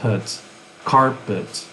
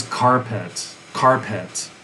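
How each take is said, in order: First: "pet" as put, then "carpet" as CAR-put; reduced to schwa. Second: "carpet" as car-pet, both vowels whole; full second vowel. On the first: Teacher showing what the original became, "carpet" with schwa ending. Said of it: "the pet became, becomes". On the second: Teacher reconstructing the original word, "carpet" with full pet. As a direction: say "carpet" with a clear eh ending. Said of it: "maybe originally it was carpet". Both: Shown as a demonstration.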